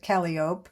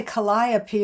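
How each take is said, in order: First: Calliope said KAL-ee-ope, silent final e; guessed pronunciation. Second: Calliope said kuh-LIE-uh-pee; own pronunciation. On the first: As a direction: say Calliope as three beats ending in 'ope'. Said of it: "maybe you pronounce it". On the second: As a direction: say Calliope with a long 'eye' in the second syllable. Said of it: "I would say". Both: Shown as a demonstration.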